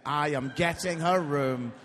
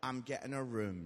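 First: "I am getting her room" loud and deliberate; low-pitched, louder, spelled-out "I am getting her room"; emphatic imitation of son. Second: Low, softer matter-of-fact reply; understated teenage indifference; imitating son. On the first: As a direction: hit each word of "I am getting her room". Repeats son's reply for emphasis. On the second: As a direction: play the unbothered son, low and quiet. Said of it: "And he is like".

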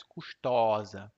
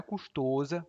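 First: Custosa slowly, with an open ó, kus-TÓ-za; slow open o, the right way. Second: Custosa said with a closed ô, kus-TÔ-za, as a mistake; wrong custosa with closed o. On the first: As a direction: custosa drawn out with an open middle o like in avó, the correct form. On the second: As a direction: custosa with a closed middle o like in avô, the form to avoid. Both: Shown as a demonstration. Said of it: "Não é custosa, mas custosa".

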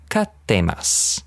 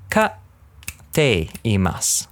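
First: Said in the usual way. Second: Katteimasu drawn out very slowly, every syllable spelled out; over-clear teaching demo; slow exaggerated Japanese. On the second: Shown as a demonstration. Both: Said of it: "Obviously not that exaggerated".

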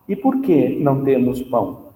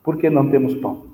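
First: "E por que não temos pão?" asked as a real question; question intonation. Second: "Por que não temos pão?" said fast as a falling statement, not a question; statement tune. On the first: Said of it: "Eu fiz uma entonação de pergunta". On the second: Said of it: "É uma afirmação". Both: Shown as a demonstration.

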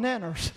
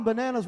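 First: "nanners" for bananas, first syllable dropped; southern dialect. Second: Said in the usual way. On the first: Shown as a demonstration. Preacher showing the congregation southern words, dialect "nanners". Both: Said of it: "give you some southern dialect".

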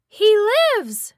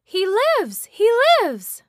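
First: Said in the usual way. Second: High, loud, witchy shriek of triumph; ecstatic scream. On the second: Acted. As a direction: scream it out in wild delight. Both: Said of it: "she screamed".

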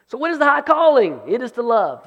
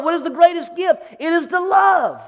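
First: Said in the usual way. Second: Rising to a full shout; preaching shout. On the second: Acted. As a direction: proclaim it with fire. Preacher building to climax, shout.

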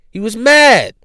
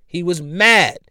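First: Higher and louder, stressing mad; louder mock-mad repeat. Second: Said in the usual way. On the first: Shown as a demonstration. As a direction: push it up like anger. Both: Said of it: "came off mad and angry".

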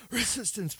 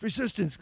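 First: Resistance coughed out quietly, higher; fake cough. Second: Resistance coughed out a second time, higher; fake cough again. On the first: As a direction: hide the word Resistance in a pretend cough. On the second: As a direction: slip Resistance into the fake cough once more. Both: Shown as a demonstration. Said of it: "like, pretending to cough".

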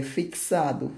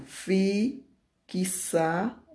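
First: Said in the usual way. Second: "fixado" slowly split, each part separated by a pause; slow, segmented "fixado" with rising parts; syllable by syllable. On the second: Shown as a demonstration. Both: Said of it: "Três sílabas".

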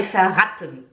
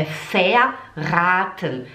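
First: Verraten said fast with short A; too quick. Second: Verraten slow, A held long. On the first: Teacher shows learners it isn't rápido, hurried verraten. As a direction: rush through verraten. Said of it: "Não é rápido". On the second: Teacher corrects the quick take, slow verraten with long A. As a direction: stretch the A in verraten. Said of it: "É um A longo". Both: Shown as a demonstration.

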